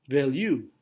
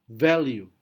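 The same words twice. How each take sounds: First: The stress is on the second syllable. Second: The stress is on the first syllable. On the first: "Tapi ada alternatif kedua" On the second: "Syllable pertama mendapatkan penekanan"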